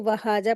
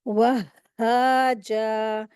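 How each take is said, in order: First: "वहाजा" run through quickly with a single h; common mistake. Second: "वहाजा" very slow, "wah-haa-jaa", doubled h and long vowels; correct shadda. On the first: Teacher imitating students' mistake, undoubled h. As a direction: say "वहाजा" casually as wa-haa-ja, nothing doubled. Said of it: "अक्सर लोग यही mistake करते हैं". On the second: Teacher correcting the common mistake, slow doubled-h recitation. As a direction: stretch "वहाजा", pausing on the first h. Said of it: "जबकि ये क्या है". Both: Shown as a demonstration.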